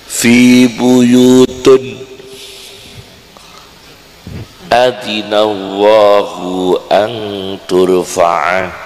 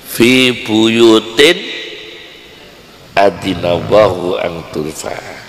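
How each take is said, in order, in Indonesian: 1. Kata buyut berakhir dengan bunyi un. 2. Kata buyut berakhir dengan bunyi in. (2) "Mestinya apa adik-adik?"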